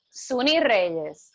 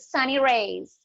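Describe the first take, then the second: First: The name is said with Spanish pronunciation. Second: The name is said with English pronunciation. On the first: This is how the name is really said. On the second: This is how other people say the name.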